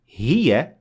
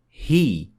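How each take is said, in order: First: The word ends with a short 'a' vowel. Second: The word ends without a final short vowel. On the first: The reading continues past this word. "if you keep on reading, you say" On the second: The reading stops at this word. "but if you stop at it, you would say"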